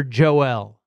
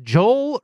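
First: Joel split in two, "Jo-ELL"; two-syllable pronunciation. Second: Joel said as one syllable, "Jole"; one-syllable pronunciation. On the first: Host offering the other pronunciation, Joel as "Jo-ELL". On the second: Host asking how it is pronounced, Joel as one syllable. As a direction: run Joel together to rhyme with "coal". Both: Shown as a demonstration. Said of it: "is it pronounced Joel or Joel".

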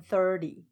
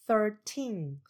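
First: Thirty, first syllable thir louder and longer; stress on THIR. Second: Put-on thirteen, second syllable teen drawn out and falling; stress on TEEN. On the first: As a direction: lean on thir in thirty, light ending. (thirty 重音放在第一音节 thir) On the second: (thirteen 重音放在第二音节 teen) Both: Shown as a demonstration. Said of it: "事实上是在重音".

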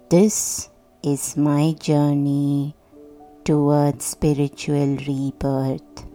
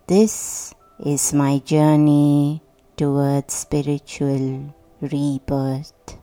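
Both takes have the same delivery.

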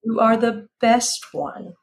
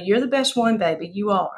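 First: Said in the usual way. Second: Southern accent. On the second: Shown as a demonstration. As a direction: say it in your best Southern accent. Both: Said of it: "do your best Southern accent".

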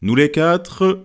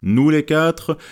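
First: Slow, drawn-out Nous les quatre, stress on quatre; slow toast opening. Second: Lightly solemn raising of a glass, stress on les; a touch of ceremony in Nous les quatre; solemn toast. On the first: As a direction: open the toast slowly and a bit higher. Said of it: "proposa le deuxième toast". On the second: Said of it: "dit sur un ton solennel". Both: A narrator's reading.

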